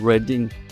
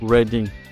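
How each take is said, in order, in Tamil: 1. முதல் உயிரெழுத்து குறுகியது, 'red' போல. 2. முதல் உயிரெழுத்து குறுகியது, 'red' போல.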